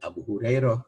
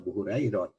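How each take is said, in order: First: The name ends with an h sound. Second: The name ends with a t sound. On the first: This is how Arabs of the Hijaz say it. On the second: This is how Persians say it. "Kalau orang Parsi kan nyebutnya"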